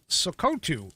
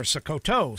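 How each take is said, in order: First: "Sokoto" ending in an oo sound, so-KOH-too; alternative pronunciation. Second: "Sokoto" ending in an oh sound, so-koh-TOH; alternative pronunciation. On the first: Newsreader trying the state's name, "Sokoto" said as so-KOH-too. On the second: Newsreader offering another reading, "Sokoto" said as so-koh-TOH. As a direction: say "Sokoto" with a final toe. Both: Shown as a demonstration. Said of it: "or Sokoto state".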